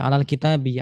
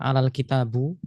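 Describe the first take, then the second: First: The final word ends with an i vowel. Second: The final word ends with an u vowel. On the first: The speaker calls it right. "tapi alal kitabi" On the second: The speaker calls it wrong. "jangan dibaca dhammah, bukan alal kitabu"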